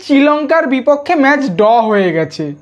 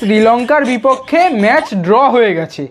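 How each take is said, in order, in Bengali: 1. draw শব্দটি r ছাড়া উচ্চারিত হয়। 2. draw শব্দটি স্পষ্ট r দিয়ে উচ্চারিত হয়। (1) "সেখানে কি বলছে" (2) "কথাটা হবে যে"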